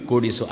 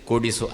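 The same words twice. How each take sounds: The two takes are said the same way.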